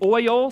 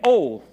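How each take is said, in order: First: The word is said with both syllables. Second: The word is squeezed into one syllable. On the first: "instead of saying oil" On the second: "They swallowed a syllable"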